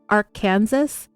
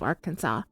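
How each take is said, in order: First: It uses the eastern Colorado and Kansas pronunciation. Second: It uses the pronunciation of the state's name. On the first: This is how the river is named in Kansas and eastern Colorado. "People in the eastern parts of Colorado and Kansas call it Arkansas" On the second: This is the pronunciation used for the state. "the way we pronounce the state of Arkansas"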